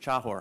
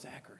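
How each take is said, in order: First: The surname is said with a Polish pronunciation. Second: The surname is said with an American pronunciation.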